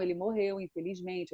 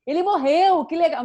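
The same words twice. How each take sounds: First: Triste, em voz baixa e contida; dê a notícia com pesar, caindo o volume; pesar demonstrado. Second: Empolgação exagerada, aguda e alta; dê a má notícia como se fosse ótima; animação inadequada. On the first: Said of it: "eu preciso botar a emoção". (tristeza contida, encenada) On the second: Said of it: "Eu não vou falar de algo assim". (alegria fora de hora, encenada) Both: Shown as a demonstration.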